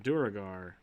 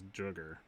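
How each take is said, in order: First: The word is said with three syllables. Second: The word is said with two syllables. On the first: The speaker calls it right. "that's definitely Duragar" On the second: The speaker calls it wrong. "I always read as Drugger"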